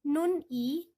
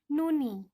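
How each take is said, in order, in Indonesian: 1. Kedua suku kata diucapkan terpisah, dengan jeda. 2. Bunyi n terbawa mulus ke suku kata berikutnya. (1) "bukan nun i, bukan terpisah" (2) "seperti ada asimilasi atau penggabungan"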